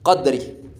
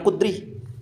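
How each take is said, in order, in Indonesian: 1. Vokal pertama adalah bunyi 'a' terbuka. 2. Vokal pertama adalah bunyi 'u' bulat. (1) "Yang benar, yang sah adalah dibaca dengan qadri" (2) "bukan kudri. Itu keliru, itu salah"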